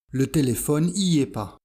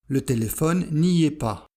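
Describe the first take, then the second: First: The negative 'ne' is dropped entirely. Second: The negative 'ne' is clearly pronounced. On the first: This is the casual spoken form. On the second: This is the careful standard form.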